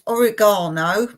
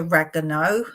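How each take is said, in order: First: It is said with a non-American pronunciation. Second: It is said with an American pronunciation. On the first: "you Americans would think I'm saying this wrong" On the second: "You say oregano"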